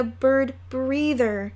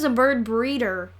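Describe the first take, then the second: First: "bird breather" with a clear th in breather. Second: "bird breeder" with a crisp d in breeder. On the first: Fudge boasting from the tree, "bird breather" with th. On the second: Peter correcting Fudge for Sheila, "breeder" with a d. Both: Acted. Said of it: "He means a bird breeder".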